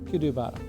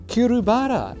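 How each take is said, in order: First: The second consonant is a D sound. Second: The second consonant is an R sound. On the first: "the first R has a D sound" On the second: "Is that how you pronounce that?"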